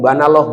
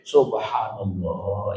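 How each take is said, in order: First: It is rushed and slurred into fewer syllables. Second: It is slow with every syllable clearly pronounced. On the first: The speaker calls it wrong. "Jangan kayak di kampung-kampung" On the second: The speaker calls it right. "Gini. Yang ta yang tajwid, yang tartil, yang rapi"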